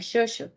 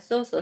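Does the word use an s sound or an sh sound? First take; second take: sh; s. First: The word is said with sh sounds. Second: The word is said with plain s sounds. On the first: The speaker calls it right. "sería shosho" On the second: The speaker calls it wrong. "no sería soso"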